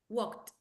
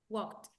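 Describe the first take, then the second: Both takes have the same delivery.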